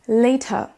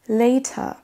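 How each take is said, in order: No difference in how they are said.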